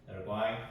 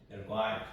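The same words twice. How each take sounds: The two takes are said the same way.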